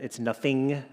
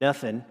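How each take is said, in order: First: The final g sound is pronounced. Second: The final g sound is dropped. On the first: The speaker calls it right. "there's a G in there, Dad" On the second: The speaker calls it wrong. "as my father would say"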